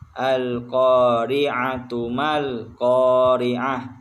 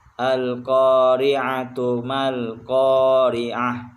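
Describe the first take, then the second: First: The first word ends with a t sound and vowel. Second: The first word ends with a t sound and vowel.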